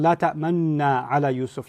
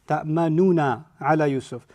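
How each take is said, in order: First: No u vowel is voiced before the final na. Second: A u vowel is voiced before the final na. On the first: "the facial expression of a dhamma without saying the dhamma" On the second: "you can pronounce it with a dhamma"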